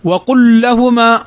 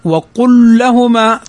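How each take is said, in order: The two takes are said the same way.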